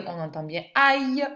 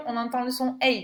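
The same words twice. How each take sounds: First: "aïe" said as "ah-y", open ah; open aïe sound. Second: "aïe" said as "ay-y", closed ay; closed aïe sound. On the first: Teacher to pupil, showing the open sound. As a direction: stress "aïe" with an open "ah" and a glide. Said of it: "Paille, on entend bien aïe". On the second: Teacher to pupil, showing the closed sound. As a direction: stress "aïe" with a closed "ay" and a glide. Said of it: "Et crayon, on entend le son aïe". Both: Shown as a demonstration.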